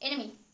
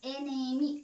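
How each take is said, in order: First: The word is said short and quick. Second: The word is stretched out slowly. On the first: The speaker calls it right. "एकदम short में, एकदम जल्द" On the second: The speaker calls it wrong. "Enemy ऐसे नहीं बोलेंगे"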